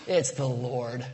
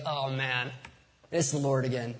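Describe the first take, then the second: First: Slow, drawn-out reverent reveal; slow awed announcement. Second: A mild tired sigh of "again"; weary mock exasperation. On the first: Acted. John telling Peter the man on shore is Jesus, slow and awed. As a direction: let the recognition land slowly. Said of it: "I don't know if that's how he said it". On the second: Preacher's own joking take on John's line, mildly weary. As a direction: shrug it off like a routine nuisance. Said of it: "but I was like".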